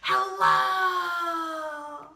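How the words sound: It is said very loudly. "as loud as we can"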